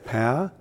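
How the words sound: The word is squeezed into a single syllable. "we say it as kind of one syllable"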